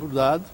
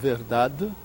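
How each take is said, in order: First: It is said in a European Portuguese accent, weakened vowels. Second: It is said in a Pernambuco accent. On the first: "a pronúncia portuguesa, que vai debilitar a última a vogal" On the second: "a pronúncia pernambucana de verdade"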